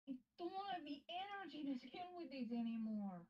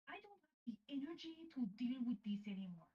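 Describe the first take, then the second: First: It is said in a whiny, pleading tone. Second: It is said in a plain tone.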